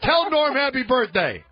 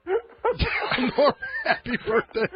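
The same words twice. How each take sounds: First: Said in the usual way. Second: Slow, breaking into laughter; can't get through it without laughing. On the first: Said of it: "repeats the line". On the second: Real, not acted. Cracks up repeating it.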